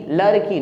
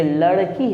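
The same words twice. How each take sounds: First: लड़की wrongly said as "larki"; light र replacing ड़ in लड़की; mispronounced with र. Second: लड़की with flicked retroflex ड़; half-strength ड in लड़की; retroflex flap ड़. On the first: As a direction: say लड़की with a plain tongue tap. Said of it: "लड़की नहीं". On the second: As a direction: jerk the tongue on ड़ in लड़की. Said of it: "ये लड़की है". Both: Shown as a demonstration.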